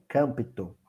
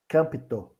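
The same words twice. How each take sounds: First: Campto repeated softly as "câmpito"; Greek word repeated. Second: Campto said softly as "câmpito"; Greek word. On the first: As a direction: say Campto as kampito, quieter. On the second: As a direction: say campto as kampito, soft and careful. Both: Shown as a demonstration. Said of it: "do grego".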